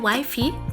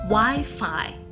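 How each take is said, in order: First: The second syllable sounds like 'fee'. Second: The second syllable sounds like 'fye'. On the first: The speaker calls it wrong. "Would you say wifey?" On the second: The speaker calls it right. "The word is rightfully pronounced Wi-Fi"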